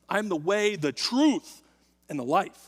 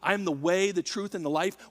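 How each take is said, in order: First: The word truth is given strong stress. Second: No word is given special stress.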